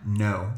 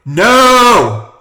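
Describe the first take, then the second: First: It is said at a normal, quieter volume. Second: It is said loudly and forcefully.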